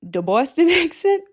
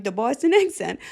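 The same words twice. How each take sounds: First: Laughing through a Boston accent. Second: "The Boston accent." with broad Boston vowels. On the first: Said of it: "when I bring out the Boston". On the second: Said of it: "I can't say it without being like". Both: Shown as a demonstration.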